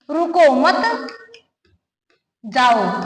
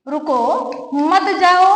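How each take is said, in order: First: रुको मत joined, long break, then जाओ dropped low; group रुको with मत, pause, then a separate low जाओ; pause after मत. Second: रुको, then a break, मत जाओ run together; pause after रुको. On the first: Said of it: "यहाँ रुकने की जरूरत नहीं है". (रुको मत साथ में, लंबा विराम, फिर जाओ) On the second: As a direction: separate रुको from मत जाओ, meaning don't go. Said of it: "ठहरिए, मत जाइए". (रुको के बाद विराम, मत जाओ साथ में) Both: Shown as a demonstration.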